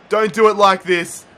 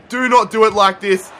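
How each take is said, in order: First: Said in the usual way. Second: "not" split out and punched in "Do not do it like this"; "Do NOT do it like this" with a stressed NOT. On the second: Real, not acted. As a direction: hit the word "not" hard.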